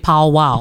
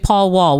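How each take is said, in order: First: The name is said the local Houston way. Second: The name is said the standard way. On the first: The speaker calls it right. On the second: The speaker calls it wrong.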